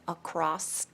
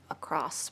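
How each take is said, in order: First: The word ends with a T sound. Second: The word ends with an S sound. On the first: The speaker calls it wrong. "across with a T at the end" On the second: The speaker calls it right. "across with just an S"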